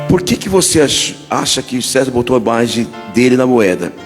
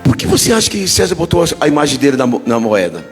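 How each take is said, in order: First: It is read slowly. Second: It is read at normal speed.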